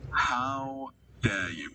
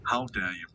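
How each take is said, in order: First: Slow, stretched how dare you; slowly, each word stretched in pretend shock; mock outrage, drawn out. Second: Said in the usual way.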